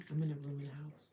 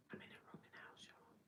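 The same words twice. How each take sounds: First: Full voiced, louder statement of where she lives; stated out loud. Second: Much softer whispered repeat; hushed repeat. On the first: Telling the stream where she lives, said out loud. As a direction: say it out plainly and strong. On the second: Repeating it to viewers, whispered so roommates won't hear. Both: Real, not acted.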